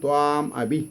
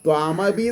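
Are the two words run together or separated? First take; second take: separated; joined. First: The two words are said as separate words. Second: The two words are run together as one. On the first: This is how the text should be read. "അപ്പോൾ അതിന് എങ്ങനെ വായിക്കണം" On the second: This is how the text is printed. "ത്വാമഭി എന്നാണ് printing"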